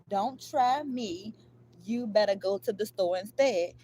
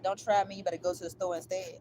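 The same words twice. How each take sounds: First: It is said slowly. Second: It is said at normal speed.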